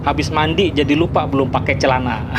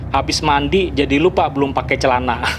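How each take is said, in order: The two takes are said the same way.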